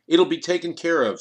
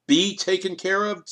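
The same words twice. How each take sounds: First: Said in the usual way. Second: Higher, insistent demand on "Be taken care of?". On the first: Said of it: "Sternberg chimed in". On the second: A narrator's reading. Kriegel demanding answers from Sternberg, higher and insistent. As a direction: push back hard, echoing the words. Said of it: "Kriegel demanded".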